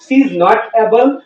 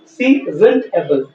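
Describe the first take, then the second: First: 'Is not' is said as two full words. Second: 'Is not' is shortened into one contracted word. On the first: "इसे भी हम दो तरीके से बोलेंगे" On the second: "इसे भी हम दो तरीके से बोलेंगे"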